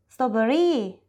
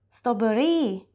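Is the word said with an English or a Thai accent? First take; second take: Thai; Thai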